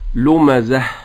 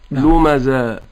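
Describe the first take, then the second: First: The word ends in an 'h' sound. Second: The word ends in a long 'a' vowel. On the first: The speaker calls it right. "أن ينطق الهاء" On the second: The speaker calls it wrong. "لمزة ينطقها ألفا"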